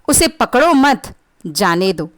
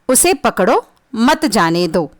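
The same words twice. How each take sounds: First: There is a pause right after 'मत'. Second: There is a pause right after 'पकड़ो'.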